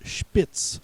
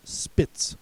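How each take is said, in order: First: "Spitz" with an initial sh sound, as shpits; "Spitz" opening on a hushing sh; German-style Spitz. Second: "Spitz" with a plain s, as spits; "Spitz" opening on s, not sh; alternative pronunciation. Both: Shown as a demonstration. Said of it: "also pronounced Spitz".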